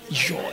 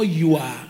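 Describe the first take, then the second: First: The word is said as one short syllable. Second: The word is drawn out into two syllables. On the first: The speaker sounds modern. The speaker calls it right. "it's your" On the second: The speaker sounds old-fashioned. The speaker calls it wrong. "it's not you are"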